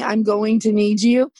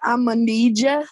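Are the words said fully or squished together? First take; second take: fully; squished. First: Each word is said fully and separately. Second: The words are run together and shortened. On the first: "instead of saying" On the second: "I tend to squish a whole bunch of words together"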